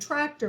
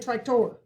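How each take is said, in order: First: The stress is on the first syllable. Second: The stress is on the second syllable. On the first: The speaker calls it right. "We're going to accent the first syllable. We say tractor" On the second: The speaker calls it wrong. "We don't say tractor"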